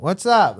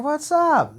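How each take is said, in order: First: A hint of a friendly reply; lightly voiced greeting; casual greeting. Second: Much higher, drawn-out hello; high mock-innocent greeting; exaggerated greeting. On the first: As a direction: toss back a casual hello. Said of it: "And I'm like". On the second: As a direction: ham up the cheery hello. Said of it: "So I'm like".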